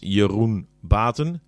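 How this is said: The name is said with a Dutch pronunciation.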